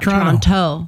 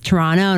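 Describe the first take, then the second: First: The second T is clearly sounded. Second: The second T is dropped. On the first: The speaker calls it wrong. "not Toronto" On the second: The speaker calls it right. "you don't say the last T. It's Toronto"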